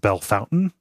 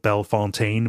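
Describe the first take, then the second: First: The middle is said like 'fountain'. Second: The middle is said like 'font'. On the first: This is how locals say the name. "but it's pronounced Bellefountain" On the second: This is how the name is written. "It's spelled Bellefontaine"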